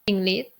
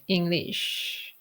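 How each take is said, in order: First: The final consonant is cut off, unreleased. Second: The final sh sound is fully released. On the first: A Thai child learning English said it this way. The speaker calls it wrong. "I would say English" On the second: This is the standard English pronunciation. The speaker calls it right. "it's hard for me to do English"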